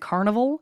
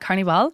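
First: The word is said with an English pronunciation. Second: The word is said with a Spanish pronunciation. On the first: The speaker calls it wrong. "sounds way better than Carnival" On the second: The speaker calls it right. "I speak Spanish. ... I'm just going to call it Carnival"

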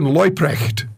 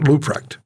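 First: The surname is said in its original pronunciation. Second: The surname is said with an anglicized pronunciation. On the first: The speaker calls it right. "I've got to pronounce this correctly" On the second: The speaker calls it wrong. "not Leuprecht"

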